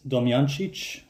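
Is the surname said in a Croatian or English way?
Croatian. The surname is said the Croatian way.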